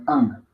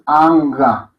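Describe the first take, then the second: First: "Ang" closed at the soft palate, no ga; low, softly finished "Ang" in one syllable; guttural ng. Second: "Anga" with a full, drawn-out ga syllable; wrong with added ga. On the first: Teacher correcting the mantra vowel, guttural closed "Ang". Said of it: "de la lengua contra el paladar blando". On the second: Teacher showing students the mistake, "Anga" with a sounded ga. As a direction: say "Anga" slowly as two open syllables. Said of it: "No es Anga". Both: Shown as a demonstration.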